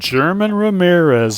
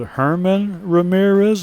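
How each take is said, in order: First: The first name begins with a J sound. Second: The first name begins with an H sound. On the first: This is how English speakers here say it. "I would say we call him Old" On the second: This is how the player himself says it. "I would guess he pronounces that"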